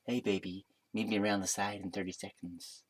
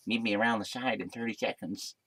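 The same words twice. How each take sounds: First: Much softer, low-key come-on; put-on seducer voice. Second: Softer, slurred character voice; put-on bartender voice. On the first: Bartender inviting the storyteller round the side, soft seductive voice. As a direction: murmur it like a mock seducer. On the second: Bartender arranging to meet round the side, slurred put-on voice. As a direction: mimic him with slushy consonants. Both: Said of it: "I don't know what he sounded like".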